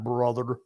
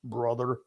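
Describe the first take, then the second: Both takes have the same delivery.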